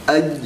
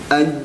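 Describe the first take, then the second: The two takes are said the same way.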